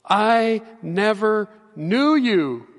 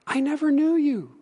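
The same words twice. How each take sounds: First: Drawn out, each word weighed; slow and solemn. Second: Said in the usual way. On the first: Shown as a demonstration. Preacher repeating Jesus's verdict to the congregation, slow and grave. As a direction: let it land slowly and gravely. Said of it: "It's sobering and it's serious". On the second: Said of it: "repeated verse".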